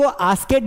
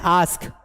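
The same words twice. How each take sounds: First: आस्केड said in two syllables, as-ked; misread word. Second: आस्क as one syllable ending in "sk"; correct reading. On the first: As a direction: sound out an extra "ked" ending in आस्केड. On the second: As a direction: say आस्क with no "ed" sound after the k. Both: Shown as a demonstration. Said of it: "इसको आस्केड नहीं पढ़ना है".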